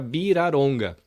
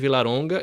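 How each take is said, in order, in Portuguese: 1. Começa com B e tem R. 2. Começa com V e tem L. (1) "quando é V, vira B ... quando é L, eles falam R" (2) "no Brasil a galera me chamava de Vilaronga"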